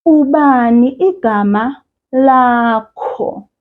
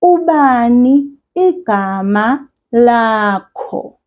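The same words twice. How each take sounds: First: "Ubani igama lakho?" slowly, falling; "Ubani" prominent, falling tune; slow clear question. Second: "Ubani igama lakho?" slowly for repeating; "Ubani" stressed, slow; slow model question. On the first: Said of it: "I say". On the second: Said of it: "Repeat after me". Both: Shown as a demonstration.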